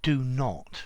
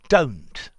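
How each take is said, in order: First: It is said as two separate full words. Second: It is contracted into a single syllable. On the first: "instead of do not" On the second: "if you say don't"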